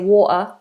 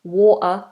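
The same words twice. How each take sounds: First: The middle T is a glottal stop. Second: The same.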